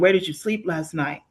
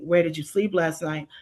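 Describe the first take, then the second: First: It sounds lightly accusing. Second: It sounds quiet, desperate and threatening.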